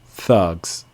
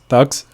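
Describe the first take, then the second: First: The sounds are long and drawn out. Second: The sounds are short and clipped. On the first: The speaker calls it right. "So make it long" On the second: The speaker calls it wrong. "make it short, it's not going to be something that uh, a listener will understand"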